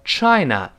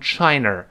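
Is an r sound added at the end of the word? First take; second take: no; yes. First: The word ends with no r sound. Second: The word ends with an added r sound. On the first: The speaker calls it right. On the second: The speaker calls it wrong.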